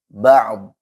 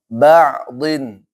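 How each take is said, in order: First: The word ends abruptly without the '-in'. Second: The word ends with an '-in' ending. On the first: The reader stops at this word. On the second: The reader continues without stopping.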